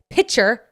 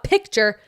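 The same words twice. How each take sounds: First: "picture" said like pitcher, no K. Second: "picture" with the K clearly sounded; standard picture. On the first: Correcting herself mid-rant, picture said as pitcher. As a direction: drop the K in "picture", punched louder. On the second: Showing the version she rejects, picture with a clear K. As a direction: hit the K in "picture", louder. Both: Shown as a demonstration. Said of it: "when you pronounce picture like pitcher".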